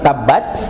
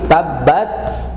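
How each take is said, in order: First: The t sound is released like ch. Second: The t stays t with a slight puff. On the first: The speaker calls it wrong. "bukan C, ... Jadi bukan tabat" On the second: The speaker calls it right. "tetap makhrajnya ta, baru kemudian keluar udara sedikit"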